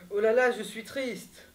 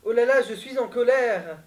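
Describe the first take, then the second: First: It is said in a sad tone. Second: It is said in an angry tone.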